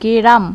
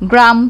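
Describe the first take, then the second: First: A vowel is inserted between g and r. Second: The g and r form one cluster. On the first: "গ্রামকে গেরাম বলছি যখন" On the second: "গ্রাম তো আমরা বলছি"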